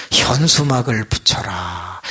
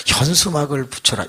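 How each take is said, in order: First: Slow divine command. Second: Said in the usual way. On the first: Retold or imitated. God's voice in prayer.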